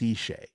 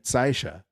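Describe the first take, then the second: First: The first vowel is not an 'eye' sound. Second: The first vowel is an 'eye' sound. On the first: This is how others usually say it. "I've almost always heard it pronounced Seishay" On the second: This follows usual German spelling rules. "E I is usually pronounced I. So I would expect it to be"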